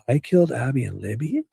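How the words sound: It ends with a rising, question tune.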